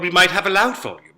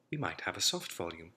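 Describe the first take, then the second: First: Much louder, quicker, projected; loud volume. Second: Noticeably softer, gentle delivery; soft volume. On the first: Accent coach demonstrating a loud volume, loudly. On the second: Accent coach demonstrating a soft volume, softly. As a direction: pull the volume right down to show soft. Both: Shown as a demonstration.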